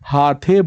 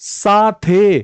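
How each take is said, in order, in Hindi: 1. शब्द की शुरुआत h ध्वनि से होती है। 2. शब्द की शुरुआत s ध्वनि से होती है।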